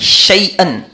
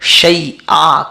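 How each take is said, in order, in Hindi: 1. यह शब्द -an ध्वनि से खत्म होता है। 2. यह शब्द लंबे a स्वर से खत्म होता है। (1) "दो जबर" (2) "एक जबर पढ़ेंगे"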